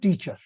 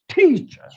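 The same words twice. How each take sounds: First: Both syllables get equal, full force. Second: The first syllable is stressed; the second is weak. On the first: The speaker calls it wrong. "It's not teacher" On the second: The speaker calls it right. "The second syllable is for swallowed"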